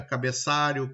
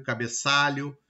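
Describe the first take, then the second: First: "cabeçário" ending in -ário, for cabeçalho; "cabeçário", the wrong -ário ending; substituted-sound mispronunciation. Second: Said in the usual way. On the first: Shown as a demonstration. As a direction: say "cabeçário" with r instead of lh. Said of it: "eu digo cabeçário, estou mudando". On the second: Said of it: "Correto seria cabeçalho".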